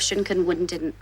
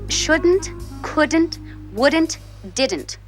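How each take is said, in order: First: The words are slurred together and blurred. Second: The words are pronounced crisply and clearly. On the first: The speaker calls it wrong. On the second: The speaker calls it right.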